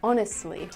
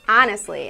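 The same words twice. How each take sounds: First: The word has a standard accent. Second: The word has a Cleveland accent. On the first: "instead of honestly" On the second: "somebody said I had a Cleveland accent, and I say things like honestly"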